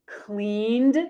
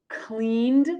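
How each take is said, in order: Both takes have the same delivery.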